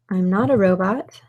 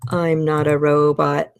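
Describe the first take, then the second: First: It is said in a normal voice. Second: It is said in a robotic voice.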